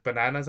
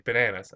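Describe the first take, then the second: First: "bananas" with open Hispanic "ah" vowels; Hispanic accent. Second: "Bananas" with standard American short "a"; correcting pronunciation. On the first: Asking fiancée about toppings, Hispanic accent. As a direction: say "bananas" as ba-NAH-nas, Hispanic-style. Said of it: "like, a Hispanic accent". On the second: Fiancée correcting the speaker, standard American pronunciation. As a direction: say "Bananas" as buh-NAN-uhs. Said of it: "she's like". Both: Retold or imitated.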